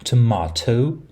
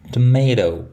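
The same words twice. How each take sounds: First: The middle t is a full stop. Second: The middle t is a quick flap. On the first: "and an alveolar stop, T" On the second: "an alveolar flap"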